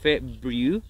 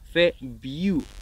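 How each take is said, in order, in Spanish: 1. La primera R se pronuncia claramente. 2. La primera R se omite. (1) "Muchos hablantes nativos no dicen February" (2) "dicen February. Así que eso también lo puedes hacer. Te puedes saltar la R"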